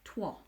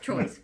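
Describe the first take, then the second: First: It is said the way the French town is. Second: It is said the way English spelling suggests. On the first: The speaker calls it right. "the correct pronunciation, apparently, is Troyes" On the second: The speaker calls it wrong. "You would assume that was how it was, right? But no"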